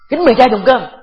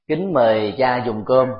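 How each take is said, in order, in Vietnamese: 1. Nói với giọng gay gắt, hung hăng. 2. Nói với giọng ngọt ngào, nhẹ nhàng. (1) "cái ngữ điệu như thế giống như là tạt nước vào cha" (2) "nghe rất là dễ thương phải không ạ?"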